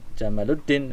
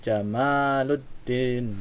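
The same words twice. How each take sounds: First: The vowel after the m is short. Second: The vowel after the m is long. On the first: The name would mean camel. The speaker calls it wrong. "jangan Jamaluddin nanti unta" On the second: The name has the intended meaning. The speaker calls it right. "M-nya pan, panjang"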